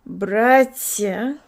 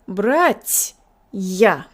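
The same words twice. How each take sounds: First: The sounds are mushed together. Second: The ya is separated from the t. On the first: The speaker calls it wrong. "which is all mushed together" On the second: The speaker calls it right. "the soft sign as acting as a sign of separation"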